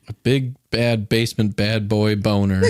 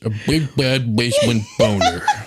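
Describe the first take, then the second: First: It is said in his normal voice. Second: It is said in a put-on fat guy voice.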